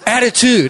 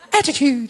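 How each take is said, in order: First: It is said in a bold, streetwise way. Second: It is said in a prim, posh British way. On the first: It means aggressive, in-your-face boldness. The speaker calls it right. "It's attitude. It's in your face. It's aggressive" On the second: It means polite self-assurance. The speaker calls it wrong. "it's not the Queen's English. People of the Commonwealth. Attitude. It's not that word"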